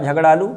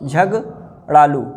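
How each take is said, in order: First: Said in the usual way. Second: Slow "झगड़ालू" split as झग, pause, ड़ालू; broken into parts. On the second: Shown as a demonstration. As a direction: dictate "झगड़ालू" very slowly with a gap in the middle. Teacher breaks word up slowly.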